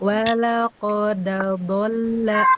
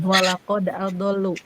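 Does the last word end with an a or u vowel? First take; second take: a; u. First: The last word ends in an a vowel. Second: The last word ends in an u vowel. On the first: This is the Warsh reading. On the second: This is the common reading.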